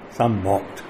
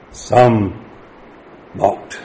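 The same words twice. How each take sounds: First: Echoed much softer, SOME leaned on; quiet repeat. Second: Said in the usual way. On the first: Shown as a demonstration. Preacher to congregation, hushed echo of the mockers. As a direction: let "Some mocked" drop to a hush.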